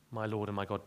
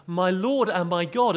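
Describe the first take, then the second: First: Low, soft, reverent "My Lord and my God."; addressing Jesus. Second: Loud, high exclamation "My Lord and my God," flung upward; as if swearing. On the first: Shown as a demonstration. Thomas speaking to Jesus, soft and low. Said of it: "he was speaking to Jesus". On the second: Retold or imitated. The Witness's version of Thomas swearing, loud exclamation. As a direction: blurt "My Lord and my God" like an oath. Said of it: "as if he was swearing".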